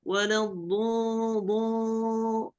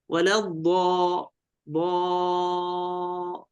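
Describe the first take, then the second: First: Slow, higher ضو, the long vowel shut toward 'o'; closed vowel imitation. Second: Slow, sustained ضا on an open 'a'; open dad. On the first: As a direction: show the mistake by sustaining a closed ضو. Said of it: "يغلق هكذا، يقول". (تقليد إغلاق الصوت في ضو) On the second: Shown as a demonstration. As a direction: chant a long open ضا to model it. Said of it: "ضاد مفتوحة ضا". (مدّ ضا مفتوحة في التلاوة)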